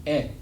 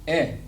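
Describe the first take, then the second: Both takes have the same delivery.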